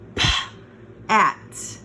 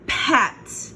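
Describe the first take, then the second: First: The sounds are said slowly and separately. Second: The sounds are blended quickly into one word. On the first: "So we have p at" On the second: "If you go too slow, you won't hear the word"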